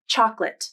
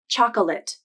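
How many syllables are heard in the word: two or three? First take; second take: two; three. First: The word is said with two syllables. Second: The word is said with three syllables. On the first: The speaker calls it right. "So you should pronounce it as two syllables" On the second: The speaker calls it wrong. "I've never heard anyone pronounce this word as chocolate"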